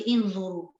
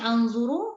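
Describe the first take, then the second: First: The word begins with an i vowel. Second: The word begins with an a vowel. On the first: "jangan baca inzuru" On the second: "Jangan baca anzuru"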